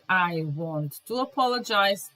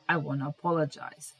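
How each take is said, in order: First: Both words of 'want to' are said in full. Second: 'Want to' is run together as 'wanna'. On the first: "instead of saying" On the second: "you just say, ... Wanna"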